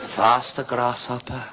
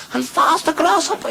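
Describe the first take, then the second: First: Measured command at usual pitch; restrained urging; kung fu master. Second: Very high, urgent command; frantic master. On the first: Master urging Grasshopper on, still calm. Master urges pupil, first take. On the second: Master urging Grasshopper on, frantic high cry. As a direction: squeal it at fever pitch. Master urges pupil, climax. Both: Acted.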